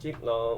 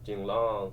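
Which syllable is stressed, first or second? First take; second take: first; second. First: The stress is on the first syllable. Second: The stress is on the second syllable. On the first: "Do they stress the first syllable" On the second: "or the second syllable?"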